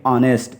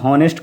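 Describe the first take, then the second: First: The word begins with a vowel sound. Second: The word begins with an h sound. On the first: The speaker calls it right. "एच को silent कर देंगे और पढ़ेंगे ऑनेस्ट" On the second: The speaker calls it wrong. "ये गलत है।"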